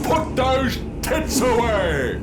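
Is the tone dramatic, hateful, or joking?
dramatic. It is said in a grand, dramatic commanding voice. The speaker is issuing a solemn command. "fucking Gandalf and Lord of the Rings"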